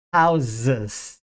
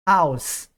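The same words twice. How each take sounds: First: Houses with the S turned into a buzzing Z; voiced z ending. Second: House ending in a hissed voiceless S. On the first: Teacher contrasting plural houses with house, voiced Z. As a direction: let Houses end on a vibrating Z. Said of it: "S passa a ter som de Z". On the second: Teacher contrasting singular house with plural, voiceless S. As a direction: close House on a sharp unvoiced S. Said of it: "Mesma coisa acontece com casa". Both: Shown as a demonstration.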